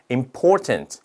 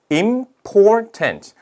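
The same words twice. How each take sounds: First: Said in the usual way. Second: Important split slowly into im, por, tant; syllable by syllable. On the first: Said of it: "요거는 삼 음절입니다". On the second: Shown as a demonstration. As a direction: pause after each beat of important. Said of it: "발음해보니까".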